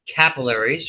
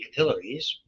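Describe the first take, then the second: First: It is said the American way. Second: It is said the British way.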